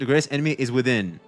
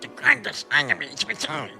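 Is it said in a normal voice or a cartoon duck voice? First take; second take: normal voice; duck voice. First: It is said in his normal voice. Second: It is said in a Donald Duck voice.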